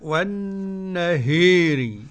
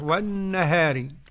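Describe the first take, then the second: First: The long a is strongly tilted toward i. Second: The long a is fully open. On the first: "والإمالة" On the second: "والفتح"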